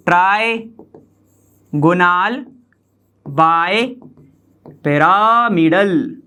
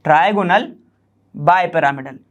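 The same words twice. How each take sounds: First: trigonal bipyramidal, very slow, part by part; slow dictation. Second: Said in the usual way. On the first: Shown as a demonstration. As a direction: stretch out trigonal bipyramidal with long breaks between the parts. Teacher repeats term piece by piece. (Trigonal bipyramidal को खींचकर, टुकड़ों में बोलें)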